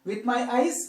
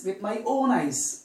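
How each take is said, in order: First: Said in the usual way. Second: "own" emphasized, falling away on "eyes"; teacher's emphatic "own"; stress on "own". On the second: Shown as a demonstration. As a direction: lean firmly on the word "own". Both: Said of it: "We are stressing".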